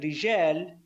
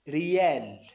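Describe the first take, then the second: First: The middle consonant is a J sound. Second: The middle consonant is a Y sound. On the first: "ada sound j" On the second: "tidak bilang j, bilang ya"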